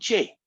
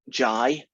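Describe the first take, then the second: First: The letter is said with an American accent. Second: The letter is said with a non-American accent. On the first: The speaker calls it wrong. "not J" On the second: The speaker calls it right. "it's J ... That's the proper pronunciations"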